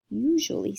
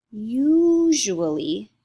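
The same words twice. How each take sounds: First: Said in the usual way. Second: "usually" drawn out slow and loud; stretched emphasis. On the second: Shown as a demonstration. Teacher stating the vowel rule, stretched emphasis on "usually".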